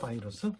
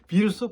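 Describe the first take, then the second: First: The word begins with a 'bai' sound. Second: The word begins with a plain 'bi' sound. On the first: This is the form used in South Korea today. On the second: This is an older Japanese-style form still used in North Korea.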